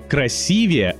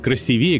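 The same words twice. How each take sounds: First: The stress is on the second syllable. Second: The stress is on the fourth syllable. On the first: The speaker calls it right. "именно красивее" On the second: The speaker calls it wrong. "а не красивее, как любят некоторые говорить"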